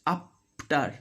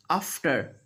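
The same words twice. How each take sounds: First: AFTER said as "ap-tar"; F made a P. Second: AFTER with an airy F; clear middle F. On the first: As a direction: lips shut on a P in AFTER. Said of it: "they do". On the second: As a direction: let air through the F of AFTER. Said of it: "when F is there in the middle". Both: Shown as a demonstration.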